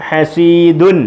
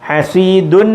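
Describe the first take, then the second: First: The word ends with an un sound. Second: The word ends with an un sound.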